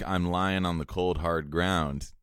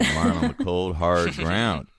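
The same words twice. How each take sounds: First: It is said in the speaker's plain accent. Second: It is said in a Southern accent.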